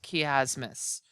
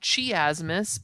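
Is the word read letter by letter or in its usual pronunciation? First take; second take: usual pronunciation; letter by letter. First: It is said with its usual spoken pronunciation. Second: It is read out the way it is spelled. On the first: The speaker calls it right. "it's actually pronounced chiasmus" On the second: The speaker calls it wrong. "it's spelled chiasmus"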